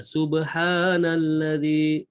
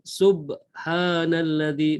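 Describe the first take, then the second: First: The b gets a light bounce, then continues. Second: The b is held stopped before continuing. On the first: The speaker calls it right. "sub dia kena langgar kecil je" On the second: The speaker calls it wrong. "bukan subhanalladzi, bukan berhenti eh"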